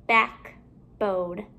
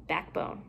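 First: BACKBONE with a gap between "back" and "bone"; two separate parts. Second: Said in the usual way. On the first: Shown as a demonstration. Teacher building compound words for pupils, halves kept apart.

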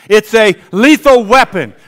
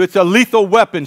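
First: The congregation echoes it louder; louder call-and-response. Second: Said in the usual way. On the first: Shown as a demonstration. Pastor leads the church, echoing the line louder. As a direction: repeat it back with force. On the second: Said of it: "Say that with me".

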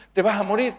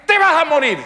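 First: High, rising question; worried question. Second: High, loud punchline shout; shouted comic verdict. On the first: Acted wife asks husband about results. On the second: Wife telling husband his fate, shouted bluntly. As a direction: blurt out the doom as a comic shout. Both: Acted.

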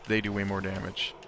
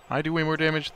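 First: "they" as the corrected word; stress on they. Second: Higher pitch on "I"; stress on I. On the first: Player settling who deals damage, stress on "they". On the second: Player correcting who deals damage, stress on "I". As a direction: stress "I", questioning the mistaken version. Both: Real, not acted.

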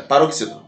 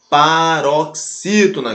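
First: Said in the usual way. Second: "paroxítona" slow, broken into separate chunks; syllable by syllable. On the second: Shown as a demonstration. Teacher names the word class, "paroxítona" syllable by syllable. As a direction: spell out "paroxítona" slowly, chunk by chunk. Teacher sounds out the key term.

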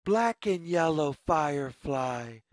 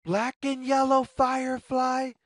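First: Quick, lower repeat of the call; fast lower echo call. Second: Quick, higher, louder call to the firefly; fast high call. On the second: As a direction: call out brightly to get its attention. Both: A narrator's reading. Calling out to the firefly.

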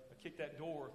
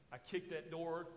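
No difference in how they are said.

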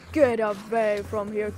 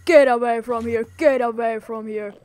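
First: Said in the usual way. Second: A loud, shooing command. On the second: Pretend. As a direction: get away said loud.

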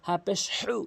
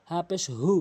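First: "হু" squeezed from mid-throat; pressed h. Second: "হু" with light unpressed breath; easy h. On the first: Teacher contrasting letters, "হু" with pressed throat h. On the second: Teacher contrasting letters, "হু" with relaxed h. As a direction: say "হু" with a plain h. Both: Shown as a demonstration. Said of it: "হরফের পার্থক্যগুলো".

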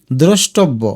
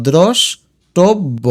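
First: Said in the usual way. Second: দ্রষ্টব্য slowly as drosh, tob-bo; broken into parts. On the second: Shown as a demonstration. Teacher tells students to break it up, দ্রষ্টব্য slowly split. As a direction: pause after the first syllable of দ্রষ্টব্য. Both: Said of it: "আর ভেঙে দেখো".

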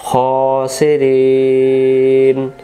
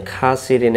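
First: খাসিরিন drawn out very slowly and chanted; recited Khasirin. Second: খাসিরিন said plainly with an open kha; common Khasirin. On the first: Teacher reciting the correct form melodically for viewers. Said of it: "মুখটা ফাঁকা হয়ে যায় না". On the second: Teacher quoting how viewers usually say it. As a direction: say খাসিরিন the everyday way. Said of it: "এটা খটা খা". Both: Shown as a demonstration.

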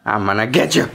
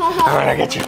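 First: Low, mock-menacing tease; playful threat. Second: High, squeaky chasing tease; playful high tease. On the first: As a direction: play the monster coming to get them, low. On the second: Pretend. Playful chase threat.

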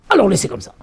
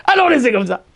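First: Said in the usual way. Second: Higher, savoring "Alors laissez comme ça"; amused repeat of the father's sly punchline. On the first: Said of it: "Il dit". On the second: Real, not acted. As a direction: relish the punchline after laughing. Laughs then repeats.

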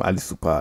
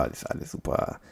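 First: Said in the usual way. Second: Breathy whispered alles, alles super, barely audible. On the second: Shown as a demonstration. Gamer whispers to himself that the recording still works. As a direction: let alles, alles super drop to a faint whisper.

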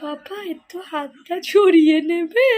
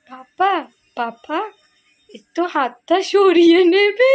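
First: Slow, whispered tearful plea; mock weepy whisper, drawn out; imitating whiny daughter. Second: Slow, whiny plea breaking into laughter; laughing half-cry of a sick little girl; imitating sick daughter. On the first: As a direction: whisper it like a sick child begging papa. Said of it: "সকালবেলা বাবাকে বলছিলাম". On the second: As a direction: mimic a poorly child asking papa to move his hand. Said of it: "বাবাকে এরকম বলছে".

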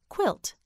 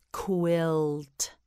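First: Said in the usual way. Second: "Quilt" drawn out evenly, with a separate final t; stretched model word. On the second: Shown as a demonstration. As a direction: stretch "Quilt" and finish on a detached t. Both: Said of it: "You say it, say quilt".

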